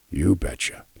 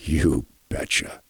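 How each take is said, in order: First: Barely whispered "You betcha"; whispered grandpa. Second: Put-on lower, softer and slow, an old man's few words; a hint of a frail grandpa barely getting it out; imitating frail grandpa. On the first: Retold or imitated. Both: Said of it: "The tone kept changing".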